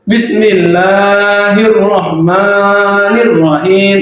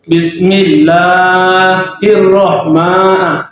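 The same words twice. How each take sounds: First: Bismillahirrahmanirrahim pelan, mad asli tepat dua harakat. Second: Bismillahirrahman- dengan mad dipanjangkan berlebihan; mad terlalu panjang. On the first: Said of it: "Bismillahirrahmanirrahim itu juga mat asli yang panjangnya dua". (contoh benar, panjang mad pas) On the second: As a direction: contohkan salah: mad melebihi dua harakat. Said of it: "itu melebihi panjangnya". (bacaan salah, mad kepanjangan) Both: Shown as a demonstration.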